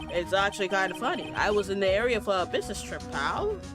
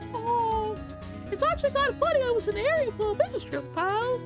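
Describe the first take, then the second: First: It is said in a normal voice. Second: It is said in a Mickey Mouse voice.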